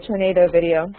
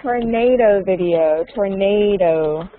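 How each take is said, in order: First: Said in the usual way. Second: "tornado" stretched out slowly; slow, clear modelling. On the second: Shown as a demonstration. Teacher models tornado for student, slow and drawn out. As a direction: say "tornado" slowly, drawing out the stressed middle syllable.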